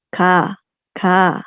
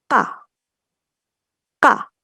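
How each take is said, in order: First: "ka" loose with air still flowing; relaxed ka. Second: "ka" short with tight vocal cords; tense ka. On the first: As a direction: say "ka" easily, letting air out. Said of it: "santai tadi". ("ka" santai) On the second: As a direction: clip "ka" with a throat catch. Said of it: "seperti kalau kita bilang kakak". ("ka" tegang dan pendek) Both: Shown as a demonstration.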